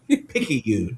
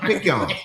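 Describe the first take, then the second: First: The word is said with three syllables. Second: The word is said with two syllables. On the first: This is how local people say it. The speaker calls it right. "Everybody in the South knows how to pronounce and enunciate Picayune" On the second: This is how outside forecasters say it. The speaker calls it wrong. "Not the weather folks on the weather channel"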